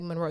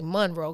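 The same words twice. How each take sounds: First: The name is said in a plain, standard way. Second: The name is said in a Southern way. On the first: The speaker calls it wrong. "You can't say Monroe" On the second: The speaker calls it right. "You got to say Monroe because I'm sure down south was a part of his journey"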